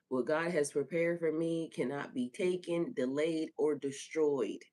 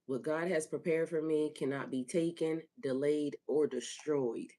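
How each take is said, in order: First: Firm, slightly lifted affirmation; whole-chested declaration. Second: Said in the usual way. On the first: Shown as a demonstration. Host urging listeners to declare God's promise, whole-chested. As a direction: affirm it with conviction, slowing on "or destroyed". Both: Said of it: "Say it with your whole chest".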